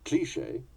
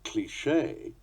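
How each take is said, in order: First: One non-final syllable is pushed, falling inflection. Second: Heavy emphasis falls on the final syllable. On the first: "the English" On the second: "the American pronunciation"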